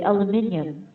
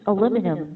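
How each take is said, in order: First: It is said with five syllables, British style. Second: It is said with four syllables, American style. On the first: "for British or for the England accent, ... They would say aluminium" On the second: "they don't use aluminum"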